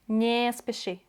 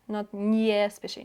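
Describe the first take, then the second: First: It is said without any y sound. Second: It is said with an added y sound. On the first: The speaker calls it right. "no y in those" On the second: The speaker calls it wrong. "don't do that"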